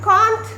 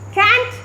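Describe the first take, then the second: First: It is said with a British accent. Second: It is said with an American accent. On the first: "British pronunciation" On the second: "American pronunciation"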